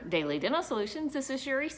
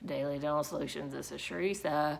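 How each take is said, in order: First: The greeting sounds warm and friendly. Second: The greeting sounds unwilling and unenthusiastic. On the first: The caller is welcome. The speaker calls it right. "I do want it to sound friendly and inviting" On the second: The person does not want to be at work. The speaker calls it wrong. "because you're not wanting to be at your job that day"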